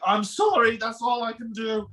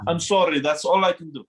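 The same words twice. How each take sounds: First: Lightly hammed-up, helpless apology; mock-helpless sorry; acted apology. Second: Lightly put-on accented film-star voice; a rough attempt at a famous actor's accent; hammed-up accented apology, dropping in pitch; Connery. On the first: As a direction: apologize a little raised, as if over someone's screams. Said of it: "You're like". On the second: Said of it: "Connery voice".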